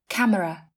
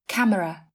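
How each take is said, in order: Both takes have the same delivery.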